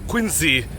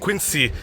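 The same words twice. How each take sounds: First: The middle consonant is a z sound. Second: The middle consonant is an s sound. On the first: This is how locals of the area say it. "aka Q U I N Z E E" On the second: This is how most people outside the area say it. "Q U I N S E E"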